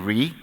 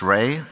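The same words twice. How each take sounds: First: The vowel matches the start of 'reinsurer'. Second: The vowel differs from the start of 'reinsurer'. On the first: The speaker calls it right. "it's really Re, quite simply, and that is because it stands for reinsurer" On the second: The speaker calls it wrong. "Some pronounce it Swiss Re"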